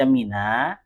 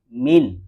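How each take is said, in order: First: The word ends with an added a vowel. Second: The word ends on the consonant n. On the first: "dibaca mina" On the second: "asalnya itu min dengan sukun begini"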